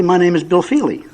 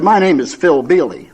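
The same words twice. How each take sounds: First: "Bill Feely" with the B and F back in place; setting the record straight on "Bill Feely"; correct name. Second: "Phil Bealey" with the B and F of Bill Feely swapped; nervous slip "Phil Bealey" for Bill Feely; spoonerism. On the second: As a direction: say the name "Phil Bealey" slowly, sounds swapped. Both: Retold or imitated. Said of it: "I created a spoonerism".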